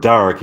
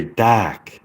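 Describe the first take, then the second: First: Said in the usual way. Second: "dark" with the R dropped, like dahk; British dark. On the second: Shown as a demonstration. Repeating a listener's accent advice, British "dark" without R. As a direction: open the vowel in "dark", no R. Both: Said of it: "how to achieve a British accent".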